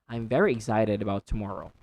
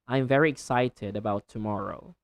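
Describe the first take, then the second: First: The t in excited sounds like a quick d. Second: The t in excited is a clear t sound. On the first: "American English or American accent, you say" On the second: "But in standard English, you can say excited"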